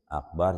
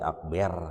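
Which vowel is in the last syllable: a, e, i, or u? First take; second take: a; e. First: The last syllable has an 'a' vowel. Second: The last syllable has an 'e' vowel. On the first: The speaker calls it right. "Akbar jadi akber" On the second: The speaker calls it wrong. "jadi akber"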